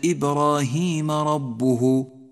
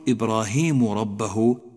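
First: Ibrahim ends in a and rabbuh in u. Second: Ibrahim ends in u and rabbah in a. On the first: His Lord tested Abraham. The speaker calls it right. "اقرأ هكذا" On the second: Abraham tested his Lord. The speaker calls it wrong. "إياك أن تخلط بين الحركات فتقول إبراهيم ربه"

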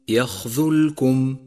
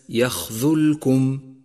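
The two takes are said the same way.

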